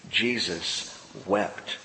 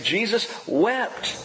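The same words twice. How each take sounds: First: Slow, low and much softer, almost held back; solemn hush. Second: Slow and higher, "wept" lifted at the end; emphatic. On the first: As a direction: let the two words sink in slowly. Solemn reading of Jesus wept. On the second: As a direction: lean into "wept" with rising weight. Emphatic reading of Jesus wept. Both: A narrator's reading.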